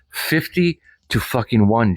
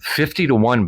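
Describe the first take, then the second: First: "Fifty to fucking one" slowly, stretched out; emphatic restatement. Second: Said in the usual way. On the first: Real, not acted. Vlogger repeats the jobs figure to Jen, slow and emphatic. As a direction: land "Fifty", then drive home "fucking one".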